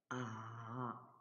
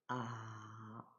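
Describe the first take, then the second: The two takes are said the same way.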